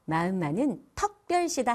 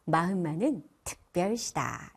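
First: "턱별시다" with 어 instead of 으; wrong 어 vowel. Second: Said in the usual way. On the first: Shown as a demonstration. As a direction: say "턱별시다", the 으 of 특 opened to 어. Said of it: "아니고요". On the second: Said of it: "이렇게 하시면 좋습니다".

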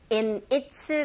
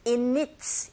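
First: Said in the usual way. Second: "in it" run together as i-nit; linked in its. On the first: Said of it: "in의 은이라는 자음과". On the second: Shown as a demonstration. Teacher shows what listeners hear, "in it" linked as i-nit. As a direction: carry the n of "in" into "it". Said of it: "연결되면 there's a liaison".

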